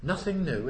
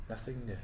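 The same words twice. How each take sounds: First: Said in the usual way. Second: A low, soft "Nothing new"; quiet echo. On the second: Shown as a demonstration. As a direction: murmur it as a settled verdict.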